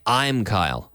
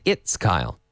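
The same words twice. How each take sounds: First: Said in the usual way. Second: "It's Kyle" said lower and falling; the answer to use, lower and settled; right form. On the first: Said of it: "I don't say". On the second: Shown as a demonstration. Teacher showing the right way to answer the door. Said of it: "We say".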